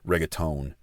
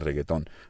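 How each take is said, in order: First: It is said with an English accent. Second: It is said with a Spanish accent.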